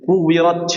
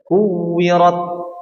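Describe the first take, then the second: First: The t is released with a forced burst. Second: The t is stopped, then released naturally. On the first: The speaker calls it wrong. "Salah seperti ini" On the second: The speaker calls it right. "tanpa dibuat-buat ya, atau tanpa disengaja"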